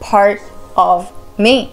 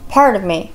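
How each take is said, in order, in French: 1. Chaque mot est dit séparément et entièrement. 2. Les mots sont liés, presque avalés. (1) "On va pas dire part of me" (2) "c'est presque avalé"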